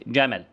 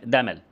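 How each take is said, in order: First: Said in the usual way. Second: دمل with d replacing the opening j; child's دمل, d-initial; child's fronting error. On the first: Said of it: "زي جمل". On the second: Shown as a demonstration. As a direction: say دمل, j turned into d. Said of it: "يقول لك دمل".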